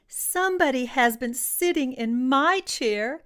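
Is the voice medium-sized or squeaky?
squeaky. It is said in a squeaky, squealing voice.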